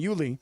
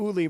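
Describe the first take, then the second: First: The name begins with a 'yoo' sound. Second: The name begins with a plain 'oo' sound. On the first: The speaker calls it right. "rather than Yuli" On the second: The speaker calls it wrong. "who I mispronounced"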